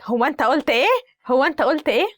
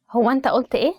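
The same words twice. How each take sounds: First: Mock-challenging mom, pitch climbing on the repeat; indignant mom. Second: Said in the usual way. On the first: Mom catches child muttering under their breath, indignant challenge. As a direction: play a mother demanding to hear it. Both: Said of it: "the mom is like".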